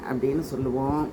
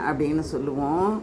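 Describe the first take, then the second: The two takes are said the same way.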